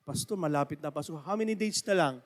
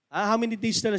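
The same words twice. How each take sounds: First: Church member asking. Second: Said in the usual way. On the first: Retold or imitated.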